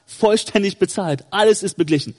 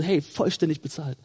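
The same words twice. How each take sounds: First: Firm declaration to the accuser; entschiedene Entgegnung. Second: Soft, low and calm; ruhig gesagt. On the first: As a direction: state it as a settled fact. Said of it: "dann holst du die Rechnung raus und sagst". (bestimmt, mit fester Stimme) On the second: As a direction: say it quietly, as self-assurance. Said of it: "Mach das ruhig mal ruhig". (ruhig und leise) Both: Acted.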